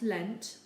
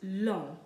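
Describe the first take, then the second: First: The word ends with a sounded final consonant. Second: The word ends without a sounded final consonant. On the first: The speaker calls it wrong. "not lent" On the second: The speaker calls it right. "We pronounce it long"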